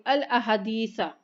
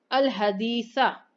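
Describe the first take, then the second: First: Slow, careful अल अहदीसा; teacher corrects herself, slowly saying अल अहदीसा to class; slow correction. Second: Slow reading अल हदीसा, missing the अ; slip of the tongue. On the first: Teacher corrects slip, slowly reading अल अहदीसा. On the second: Teacher misreads अल हदीसा slowly before correcting herself. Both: Shown as a demonstration. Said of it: "अल, sorry".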